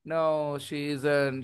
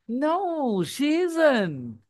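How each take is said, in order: First: It is said in a flat, robotic monotone. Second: It is said with lively, expressive intonation. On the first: The speaker calls it wrong. "ऐसे करेंगे क्या? Robot की तरह" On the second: The speaker calls it right. "ऐसे reaction देंगे ना"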